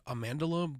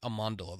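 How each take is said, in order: First: Amandala said as spelled, "man" as in "hand"; spelling pronunciation. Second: Amandala with "man" sounded "mahn"; correct pronunciation. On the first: Host explaining the spelling, Amandala with flat "man". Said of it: "I think it's spelled like". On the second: Host showing how it's pronounced, Amandala with "mahn". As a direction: say Amandala with an open "ah" in the second syllable. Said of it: "but it's pronounced". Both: Shown as a demonstration.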